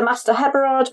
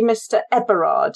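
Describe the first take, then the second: First: Heberard said with a sounded H at the start; H pronounced. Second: Eberard begun straight on the vowel, no H. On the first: Explaining the local way of saying the name, H sounded in Heberard. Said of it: "with the H pronounced". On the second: Giving the glassworks manager's actual name, Eberard without an H. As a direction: leave off any H at the front of Eberard. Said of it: "he's actually Mister Eberard". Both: Shown as a demonstration.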